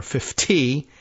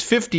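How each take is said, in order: First: "fifty" said in a light Minnesotan accent; a touch of Minnesota in "fifty"; mild Minnesota-accented "fifty". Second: Said in the usual way. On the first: Shown as a demonstration. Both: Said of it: "in Minnesotan".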